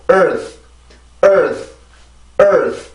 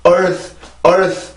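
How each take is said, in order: First: "earth" with the jaw barely moving; correct jaw-still pronunciation. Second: "earth" with the jaw dropped open; wrong jaw-drop pronunciation. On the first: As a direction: say "earth" with a relaxed, nearly closed mouth. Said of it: "이만큼만 발음, 그 턱이 거의 변화가 없단". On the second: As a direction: say "earth" wrongly, mouth falling wide on the vowel. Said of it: "이게 아니고". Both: Shown as a demonstration.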